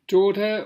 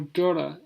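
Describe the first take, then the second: First: It is said in a Southern English accent. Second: It is said in an American accent.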